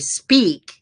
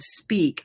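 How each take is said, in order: First: The vowel is exaggerated and affected. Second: The vowel is plain and natural. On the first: The speaker calls it wrong. "unless I want to do an affectation" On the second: The speaker calls it right. "if I say the word speak"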